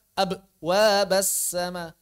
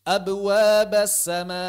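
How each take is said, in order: First: Abwabas broken after "ab"; loud ab, pause, wabas sama; wrongly paused echo. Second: Loud, slow abwabas sama in one flow; chanted abwabas sama, bounce running straight on; correct joined echo. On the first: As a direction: show the mistake: a gap inside abwabas. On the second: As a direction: model abwabas with no break after b. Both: Shown as a demonstration. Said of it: "Jangan dibaca".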